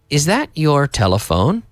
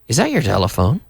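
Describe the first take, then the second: First: The words are said separately and carefully. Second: The words are linked together and said quickly.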